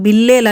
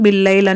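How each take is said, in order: First: The second syllable has a plain e vowel. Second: The second syllable has an ai diphthong. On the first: This is how it sounds to listeners. "మనకి వినబడంలో బిల్లేల్ అని వినబడుతుంది" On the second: This is the correct form. "దాని correct pronunciation బిల్లైల్"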